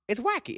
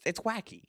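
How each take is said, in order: First: It's wacky with wacky jumping up high and rising at the end; It's wacky said again, higher and lilting up; squealed up high. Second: Said in the usual way. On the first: Shown as a demonstration. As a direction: toss It's wacky up into a high, delighted rise.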